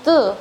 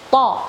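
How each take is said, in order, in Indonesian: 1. Vokalnya tertutup, terdengarnya seperti u. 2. Vokalnya terbuka, terdengarnya seperti o. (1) "jangan syaitu dengan tu" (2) "tapi to"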